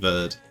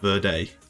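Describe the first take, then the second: First: The word ends in a plain 'd' sound. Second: The word ends in a 'day' sound. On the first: The speaker calls it right. "The British pronunciation is Cape Verde" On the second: The speaker calls it wrong. "so it doesn't actually have Verde"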